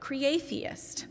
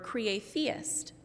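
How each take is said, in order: First: The word ends with the sound 'atheist'. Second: The word ends with the sound 'theist'. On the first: A nonbeliever who sees reality as creative. "an atheist who knows the same thing" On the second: A believer who sees reality as creative and divine. "a theist who knows that the whole of reality is creative"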